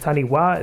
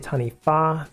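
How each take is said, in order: First: The 'wh' is said as a W sound. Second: The 'wh' is said as an F sound. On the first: The speaker calls it wrong. "even though it looks like taniwha" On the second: The speaker calls it right. "it's actually taniwha. W H in Māori is always an F sound"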